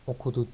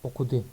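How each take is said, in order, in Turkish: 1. Son ünlü yuvarlak dudakla söylenir. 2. Son ünlü düz dudakla söylenir. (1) "Okudu değil" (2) "Yuvarlaklaşma meydana gelmiyor"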